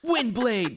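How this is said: It is said strongly and coolly, sounding confident. "Like he's confident"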